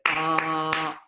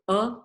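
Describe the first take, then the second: First: The vowel is held for a very long time. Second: The vowel is held only briefly. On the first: "very long breath" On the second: "short breath"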